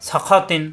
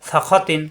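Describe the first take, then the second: No difference in how they are said.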